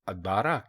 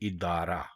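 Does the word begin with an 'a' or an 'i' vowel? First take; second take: a; i. First: The word begins with an 'a' vowel. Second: The word begins with an 'i' vowel. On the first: The speaker calls it wrong. "इसको अदारा कहना या लिखना बिल्कुल गलत है" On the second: The speaker calls it right. "दुरुस्त लफ्ज़ है इदारा"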